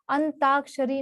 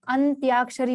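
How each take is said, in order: First: अंताक्षरी with plain "taa", no glide; wrong form. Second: अंत्याक्षरी with a "tyaa" glide; correct form. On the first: Teacher citing the error, अंताक्षरी with plain "t". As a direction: leave any "y" out of अंताक्षरी. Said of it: "अंताक्षरी नहीं होता". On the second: Teacher giving the right word, अंत्याक्षरी with "ty" sound. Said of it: "अंत्याक्षरी होता है". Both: Shown as a demonstration.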